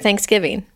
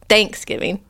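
First: The stress falls on the last part, giving. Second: The stress falls on the first part, thanks. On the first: "We say giving" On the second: "You say thanks"

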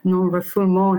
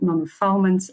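First: The word is said with a French accent. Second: The word is said with a British English accent. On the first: "if you want to be a fancy French accent" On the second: "in British English"

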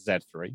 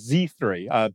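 First: The letter Z is said the British way. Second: The letter Z is said the American way. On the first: It is the speaker's own habit. "Being British, I call that Z3" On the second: It suits the listeners. "let me try and pronounce this in a way your audience will understand"

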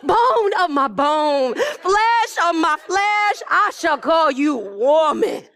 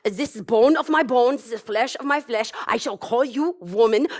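First: It is said with a lively poetic rhythm. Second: It is said in a serious German accent.

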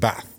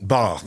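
First: The word is said in a local accent. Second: The word is said in a posh accent. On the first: This is the speaker's original way of talking. "instead of" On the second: The speaker has changed how they talk. "you're talking posh and you're saying bath"

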